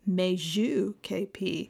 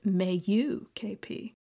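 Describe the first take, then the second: First: A J sound is heard in the name. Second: The J in the name is silent. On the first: The speaker calls it wrong. "previously pronounced incorrectly as" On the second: The speaker calls it right. "in actuality pronounced ... another silent J"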